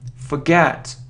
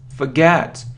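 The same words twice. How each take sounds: First: The first syllable has a weak 'fuh' vowel. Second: The same.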